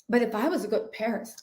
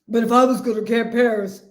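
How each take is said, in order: First: It is said in the speaker's own voice. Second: It is said in an imitation of Marlo.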